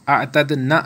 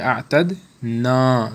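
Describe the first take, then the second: First: The final vowel is cut short. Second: The final vowel is drawn out long. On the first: The speaker calls it wrong. "अतद ना नहीं हम पढ़ेंगे" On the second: The speaker calls it right. "बल्कि अतद ना"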